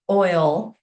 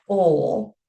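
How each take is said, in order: First: "oil" with the full oy glide; standard pronunciation. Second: "oil" said as "ole", losing the oy glide; Appalachian pronunciation. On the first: Linguist naming the word a boy mispronounced, standard pronunciation. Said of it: "for pronouncing oil". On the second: Linguist showing what a boy was mocked for, Appalachian pronunciation. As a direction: say "oil" so it rhymes with "coal". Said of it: "made fun of for pronouncing oil". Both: Shown as a demonstration.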